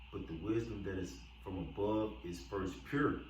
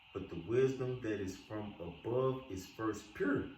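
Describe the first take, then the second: Both takes have the same delivery.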